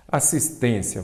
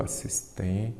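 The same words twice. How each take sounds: First: Said in the usual way. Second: "Assistência" dividida em sílabas, mais baixo; separação em sílabas. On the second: Shown as a demonstration. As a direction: diga "Assistência" sílaba por sílaba, com pausa antes do final. ("Assistência" silabada, em voz mais baixa) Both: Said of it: "vamos separar em sílaba".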